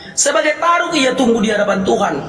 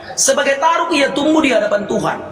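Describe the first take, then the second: No difference in how they are said.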